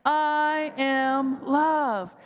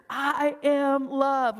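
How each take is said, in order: First: I am love drawn out very slowly; very slow affirmation. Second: Drawn-out, sincere I am love; slow affirmation. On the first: Speaker repeats affirmation again, even slower. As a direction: linger on every word, fully sincere. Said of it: "Let's say it again". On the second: Speaker leading the group to affirm themselves, slowly. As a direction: stretch each word out gently. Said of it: "Let's own our loving nature". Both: Shown as a demonstration.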